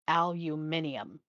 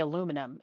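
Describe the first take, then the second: First: It is said the British way. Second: It is said the American way. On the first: "She always said aluminium" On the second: "We say aluminum in the United States"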